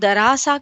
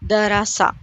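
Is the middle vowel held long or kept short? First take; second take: long; short. First: The middle vowel is stretched out long. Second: The middle vowel is short and quick. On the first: The speaker calls it wrong. "ये गलत है" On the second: The speaker calls it right. "हरकत को हम जल्दी पढ़ेंगे, थोड़ा भी ना खींचे"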